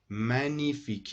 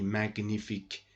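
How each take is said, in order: First: No hard G sound is heard in the word. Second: A hard G sound is pronounced in the word. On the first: The speaker calls it right. "G. Ça ne se prononce pas. It's silent" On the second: The speaker calls it wrong. "Don't pronounce G in this word. M don't say magnifique"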